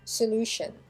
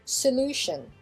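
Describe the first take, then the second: First: The stress is on the second syllable. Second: The same.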